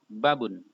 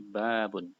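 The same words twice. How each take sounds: First: The first vowel is said short. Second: The first vowel is said long. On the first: The speaker calls it wrong. "bukan babun" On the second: The speaker calls it right. "tapi babun"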